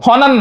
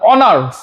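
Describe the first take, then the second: First: The name begins with an h sound. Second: The name begins with a vowel sound. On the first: The speaker calls it wrong. "হনার না" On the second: The speaker calls it right. "It will be অনার"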